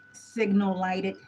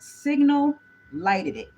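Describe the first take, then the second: First: "signal lighted" drawn out slowly at normal volume; slow deliberate delivery. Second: "Signal lighted it" slow and much louder; loud slow punchline. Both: Shown as a demonstration. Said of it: "I've been waiting to say that".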